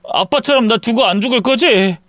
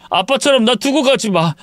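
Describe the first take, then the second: First: High, pleading check on 안 죽을 거지; worried son asking for reassurance; anxious question. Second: High, tearful begging on 가지 마; frightened son pleading, falling at the end; fearful plea. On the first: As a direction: seek a promise, voice pitched up. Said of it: "갑자기 떠나버릴까". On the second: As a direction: beg not to be left, pitch way up. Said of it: "아들이 느끼는 공포심". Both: Acted.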